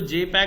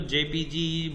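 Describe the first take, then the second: First: It is said as one word, jay-peg. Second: It is spelled out as letters, J-P-G. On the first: The speaker calls it wrong. "उसको जे पैग ना बोल के" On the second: The speaker calls it right. "उसको जेपीजी बोला करो"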